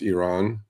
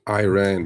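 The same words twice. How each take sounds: First: The first vowel does not sound like letter I. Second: The first vowel sounds like the letter I. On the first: The speaker calls it right. "but truthfully, it's Iran" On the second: The speaker calls it wrong. "I do understand Americans pronouncing Iran because it's an I"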